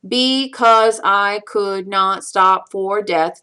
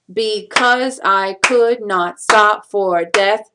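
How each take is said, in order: First: "Because I could not stop for death" slow, one even beat per syllable; counting out syllables. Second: "Because I could not stop for death" slow, stress on -cause, could, stop, death; stressing the beats. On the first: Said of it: "count out the syllables". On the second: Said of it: "figure out the stress". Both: Shown as a demonstration.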